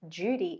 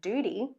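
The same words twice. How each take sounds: First: The D and U blend into a J-like sound. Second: The D and U are kept as separate sounds. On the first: "I've blended that D and U to say duty" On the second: "and not duty"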